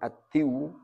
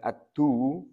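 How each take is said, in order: First: The d is followed by an i vowel. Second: The d is followed by a u vowel. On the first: "Bukan ad-diw" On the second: "Bukan ad-du"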